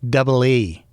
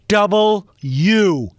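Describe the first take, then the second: First: The letter name is clipped, without a clear final syllable. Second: The letter name is said in full, every syllable clear. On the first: The speaker calls it wrong. "people who can't pronounce the letter W" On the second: The speaker calls it right. "I'm yelling at the television"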